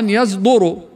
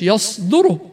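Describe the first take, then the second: First: The consonant after the ya is a heavy voiced z. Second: The consonant after the ya is a voiceless emphatic s. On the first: The speaker calls it wrong. "قد يقرأها خطأ يصدر مع تفخيم الزاي والدال" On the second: The speaker calls it right. "يصدر هي إيش؟"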